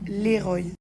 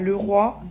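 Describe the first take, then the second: First: It sounds like the name 'Léroy'. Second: It sounds like the words 'le roi'. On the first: The speaker calls it right. "ça se prononce Leroy" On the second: The speaker calls it wrong. "pas le roi"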